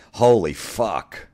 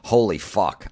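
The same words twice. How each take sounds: First: "Holy" stretched out slowly and higher; drawn-out exasperation. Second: Said in the usual way. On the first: Real, not acted. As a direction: drag out "Holy fuck" in disbelief.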